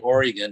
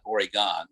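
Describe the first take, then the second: First: The name is pronounced the local Oregon way. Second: The name is pronounced an outsider's way. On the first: A native of the area says it. The speaker calls it right. "I say Oregon" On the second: Someone from elsewhere says it. The speaker calls it wrong. "not Oregon"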